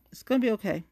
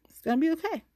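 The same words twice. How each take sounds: First: Said in the usual way. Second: High, sing-song reassurance; talking herself down in a lilting tone; mock reassuring. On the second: Shown as a demonstration. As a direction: soothe yourself in a lilting high voice.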